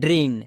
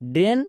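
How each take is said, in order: First: The vowel glides from 'e' toward 'i'. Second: The vowel is a plain, steady 'e' sound. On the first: "এ বা এই sound করব" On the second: "এ বা এই sound করব"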